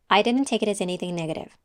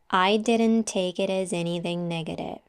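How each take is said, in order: First: The phrase is spoken faster. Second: The phrase is spoken slowly. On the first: "And now a little faster" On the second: "now say it with me slowly first"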